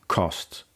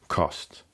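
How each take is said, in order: No difference in how they are said.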